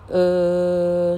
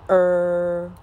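First: 呃 as a relaxed "uh", tongue not curled; plain schwa. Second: 呃 as "er" with r-colouring; long r-coloured vowel on 呃; curled-tongue schwa. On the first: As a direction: hold 呃 level without any r sound. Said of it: "十一号叫，". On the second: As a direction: hold 呃 level with the tongue curled back. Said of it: "十二号叫，". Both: Shown as a demonstration.

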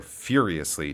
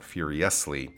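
First: "furiously" as FYUR-ee-us-lee, beat up front; stress on first syllable. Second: "furiously" slowed, as fyur-ee-US-lee; stress on second-to-last syllable. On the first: Teacher gives dictionary stress, "furiously" stressed at the start. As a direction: put the weight on FYUR in "furiously". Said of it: "put the stress on the beginning syllable". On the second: Teacher shows wrong stress, "furiously" stressed on second-to-last syllable. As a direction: push the beat to US in "furiously". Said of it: "not the middle or second to last". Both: Shown as a demonstration.

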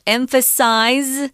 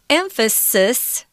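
First: "emphasize" slow, last syllable rhyming with "eyes"; verb ending, Z sound. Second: "Emphasis" ending in a short "sis"; clear S sound. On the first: Teacher recapping the verb, "emphasize" with long I and Z ending. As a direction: say "emphasize" carefully with a final Z. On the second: Teacher recapping the noun, "Emphasis" with a clear final S. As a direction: say "Emphasis" carefully, final S unvoiced like "hiss". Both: Shown as a demonstration. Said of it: "Notice the S sound".

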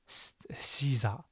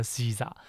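First: 西萨 whispered under the breath, unvoiced and soft; whispered try-out. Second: Said in the usual way. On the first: Real, not acted. Teacher trying out how to say Caesar, whispering 西萨 to herself. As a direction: mouth 西萨 to yourself in a hushed whisper, testing it. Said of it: "这怎么讲呢？". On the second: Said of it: "反正他的发音就叫西萨".

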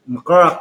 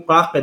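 First: "Glaken" with an extra hummed onset and rolled r; pronunciation contrast. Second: "Glaken" as two syllables, "kla-ken"; pronunciation contrast. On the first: Co-host shows two words differ, "Glaken" drawn into more syllables. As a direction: say "Glaken" as "m-karak-en". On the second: Co-host shows two words differ, "Glaken" said as "klaken". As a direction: say "Glaken" with a plain kl start. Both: Shown as a demonstration. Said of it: "Glaken跟Glaken哪里像".

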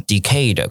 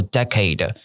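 First: "decade" stressed on the end, like "decayed"; slow demo of wrong-stress "de-CADE"; misplaced stress. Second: "decade" stressed as "DEK-ade"; first-syllable stress. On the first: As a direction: say "decade" as "di-KAYD". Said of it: "如果你讲成". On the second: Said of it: "如果你讲成decade". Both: Shown as a demonstration.

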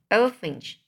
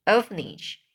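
First: Orphanage cut short as "ofin"; misread word. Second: Orphanage said in full as "of-en-idge"; corrected word. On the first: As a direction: orphanage swallowed to two syllables, ending clipped off. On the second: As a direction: orphanage carefully with all three syllables. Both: Shown as a demonstration.

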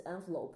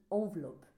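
First: "envelope" said the English way; English-style "envelope"; English pronunciation. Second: "envelope" said the French way; French pronunciation. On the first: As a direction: say "envelope" as an English word, opening on "en". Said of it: "那个英文信封不是envelope吗". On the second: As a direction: open "envelope" on a French nasal "on". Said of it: "法文是envelope". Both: Shown as a demonstration.

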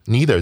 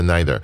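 First: "neither" as NEE-ther, long "ee" first; NEE-ther pronunciation. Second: "neither" as NY-ther, "eye" sound first; NY-ther pronunciation. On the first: Teacher adding a note on the word, "neither" as NEE-ther. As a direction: open "neither" with "knee". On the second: Teacher offering the alternative reading, "neither" as NY-ther. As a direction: open "neither" with "nigh". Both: Shown as a demonstration. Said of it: "或者neither".

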